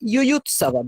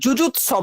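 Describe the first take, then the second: First: The word begins with a Y sound. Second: The word begins with a J sound. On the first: The speaker calls it right. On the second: The speaker calls it wrong. "যুজুৎসব নয়"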